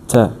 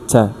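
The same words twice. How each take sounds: First: The vowel is a short relaxed schwa sound. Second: The vowel is a short relaxed schwa sound.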